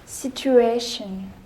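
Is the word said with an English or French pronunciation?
English. The word is said with an English pronunciation. "All English words that end with D I O N"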